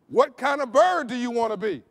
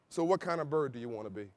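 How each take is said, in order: First: It is said loudly with more energy. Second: It is said in a low, quiet voice.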